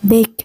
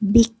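First: The vowel sounds closer to an e sound. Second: The vowel is a clear short i sound. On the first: The speaker calls it right. "จะออกไปทางเสียง e มากกว่า" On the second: The speaker calls it wrong. "เขาไม่ค่อยพูดว่า"

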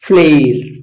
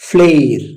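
Both takes have the same delivery.

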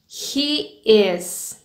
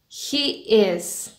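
Both takes have the same delivery.

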